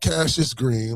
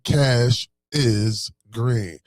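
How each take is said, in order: First: The first part is said as one name, 'Cassius'. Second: The first part is said as two words, 'cash is'. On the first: The name sounds like the boxer's first name. The speaker calls it wrong. "Not Cassius Green like Cassius Clay" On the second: The name means cash is green, like money. The speaker calls it right. "Cash is green like the sky is blue"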